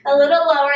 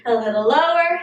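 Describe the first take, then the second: First: Louder, urging a little lower; pushing louder cue. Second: Said in the usual way. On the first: Shown as a demonstration. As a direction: coach pushing harder on the pulse. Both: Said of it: "you're pulsing a little lower".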